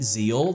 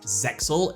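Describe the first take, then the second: First: The middle X sound is left out. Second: The middle X sound is clearly pronounced. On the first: The speaker calls it wrong. "They'd use the X as silent" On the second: The speaker calls it right. "it's not silent. It is pronounced Zexal"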